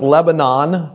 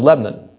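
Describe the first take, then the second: First: All three syllables are clearly pronounced. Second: The middle syllable is swallowed and dropped. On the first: "It wasn't Lebanon" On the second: "What happened to the middle syllable? It's gone"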